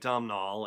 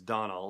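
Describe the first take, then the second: First: The name is said like 'Dom-nall'. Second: The name is said like 'Donald'. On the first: The speaker calls it wrong. "I've been saying it Domhnall" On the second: The speaker calls it right. "apparently it's Donald"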